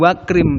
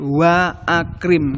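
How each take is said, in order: First: The vowel after wa is dropped and linked. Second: The vowel after wa is pronounced separately. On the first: The speaker calls it wrong. "Bukan wakrim" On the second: The speaker calls it right. "tapi wa akrim karena hamzahnya kotok"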